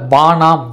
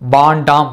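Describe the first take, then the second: First: The nd cluster is reduced to n. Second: The first vowel changes to a long a. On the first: This is how other regions say it. "சில பகுதிகளில் வானாம் என்றும்" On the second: This is how some regions say it. "வேண்டாம் என்பதை வாண்டாம் என்றும்"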